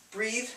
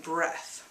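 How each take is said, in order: First: "Breathe" with long ee and voiced th; contrasted long vowel. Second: "breath" with short e and voiceless th; contrasted short vowel. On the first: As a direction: hold the ee in "Breathe", buzz the th. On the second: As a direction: keep "breath" short, ending on airy th. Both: Shown as a demonstration. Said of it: "It sounds very different".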